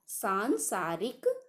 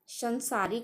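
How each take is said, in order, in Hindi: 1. पहला स्वर लंबा 'aa' है। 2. पहला स्वर छोटा 'a' है। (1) "यह सांसारिक होता है" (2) "संसारिक नहीं"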